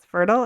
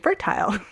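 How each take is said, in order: First: It is said in an American accent. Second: It is said in a Canadian accent. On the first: "every um, guest I've had from the States says fertile" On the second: "and I say fertile"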